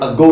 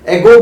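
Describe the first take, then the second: First: The first vowel sounds like 'uh'. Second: The first vowel sounds like 'eh'. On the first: The speaker calls it right. "अगो बोलिए" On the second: The speaker calls it wrong. "एगो मत बोलिए"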